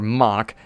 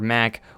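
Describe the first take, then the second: First: The name is said the German way. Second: The name is said the American way. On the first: The speaker calls it right. "as you know, they'd be pronounced in Germany" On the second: The speaker calls it wrong. "a lot of people say Mac because we're in America"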